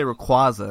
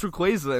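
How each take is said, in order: First: Rayquaza with an open "kwah"; disputed pronunciation. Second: Rayquaza with a long A, "kway"; correct pronunciation. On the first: Retold or imitated. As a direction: quote others saying "ray-KWAH-za" for Rayquaza. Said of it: "people say Rayquaza". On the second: Shown as a demonstration. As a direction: insist on "ray-KWAY-za" for Rayquaza. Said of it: "it's pronounced Rayquaza".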